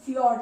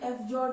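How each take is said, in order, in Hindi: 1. यह एक अक्षर में बोला जाता है, fyord। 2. यह दो अक्षरों में बोला जाता है, ef-jord। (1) "फ्यॉर्ड है" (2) "ये एफ जॉर्ड नहीं है"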